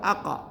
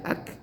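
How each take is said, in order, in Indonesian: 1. K dilepas dengan bunyi vokal yang menggema. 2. K ringan, tanpa gema. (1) "Salah. Dia tidak boleh qalqalah" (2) "Dia tipis saja"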